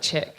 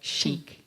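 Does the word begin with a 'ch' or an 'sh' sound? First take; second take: ch; sh. First: It begins with a hard ch sound. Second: It begins with a soft sh sound. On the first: The speaker calls it wrong. "Otherwise, okay. It's like chick" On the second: The speaker calls it right. "you have to pronounce it the French way"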